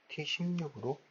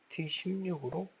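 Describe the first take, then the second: No difference in how they are said.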